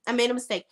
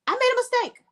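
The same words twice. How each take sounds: First: Said in the usual way. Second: High, hammed-up "I made a mistake"; sarcastic fake remorse, pitched high; mock apology. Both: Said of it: "he was gonna be like".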